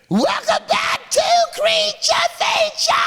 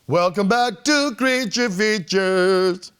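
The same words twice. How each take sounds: First: It is said in a metal screech. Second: It is said in a normal speaking voice.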